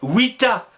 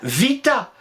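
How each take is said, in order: First: The word begins with a 'w' sound. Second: The word begins with a 'v' sound. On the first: This is how the ancient Romans said it. The speaker calls it right. "Mais les Romains ne disaient pas vita, ils disaient vita" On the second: This is how it is taught at school. The speaker calls it wrong. "on apprend à l'école, quand on étudie le latin, vita"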